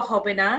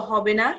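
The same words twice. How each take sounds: Both takes have the same delivery.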